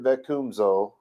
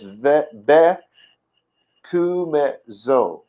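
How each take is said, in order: First: The syllables are run together quickly. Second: Each syllable is spoken separately. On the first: This is how it sounds in modern Hebrew. "modern Bekumzo" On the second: This is how it was said in ancient Hebrew. "broken these words up by syllable"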